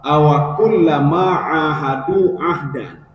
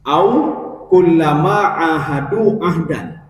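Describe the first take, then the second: First: The waw carries an a vowel: awa. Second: The waw has no following vowel: aw.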